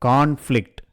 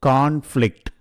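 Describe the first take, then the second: No difference in how they are said.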